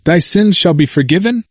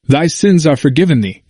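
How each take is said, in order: First: Higher, questioning "Thy sins shall be forgiven"; questioning misquote. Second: "Thy sins are forgiven thee" as a firm, falling statement; emphatic present tense. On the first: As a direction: ask "Thy sins shall be forgiven" with the pitch raised, as if checking. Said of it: "didn't it say". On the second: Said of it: "with an emphasis". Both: Acted.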